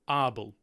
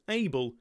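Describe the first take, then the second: First: The name is said with a Dutch pronunciation. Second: The name is said with an English pronunciation. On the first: The speaker calls it right. "in the original Dutch" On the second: The speaker calls it wrong. "not pronounced Abel"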